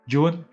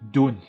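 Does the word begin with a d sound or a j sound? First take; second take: j sound; d sound. First: The word begins with a j sound. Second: The word begins with a d sound. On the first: "British pronunciation is June. That's J sound" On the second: "And U S is Dune"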